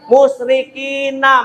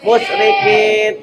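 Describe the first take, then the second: First: The word ends with a short vowel. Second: The word ends on a bare consonant.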